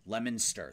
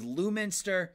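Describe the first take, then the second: First: The first part sounds like the word lemon. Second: The first part does not sound like lemon. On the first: The speaker calls it right. "It's actually Lemonster. So lemon stir. So like the lemon" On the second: The speaker calls it wrong. "So you went with Lewminster"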